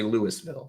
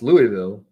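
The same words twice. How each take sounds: First: The s in the name is pronounced. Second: The s in the name is silent. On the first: The speaker calls it wrong. "I want to say Louisville" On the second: The speaker calls it right. "But it's Louisville"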